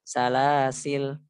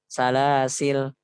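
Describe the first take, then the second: First: The word ends with a consonant. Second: The same.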